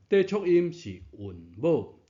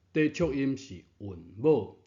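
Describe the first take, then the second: No difference in how they are said.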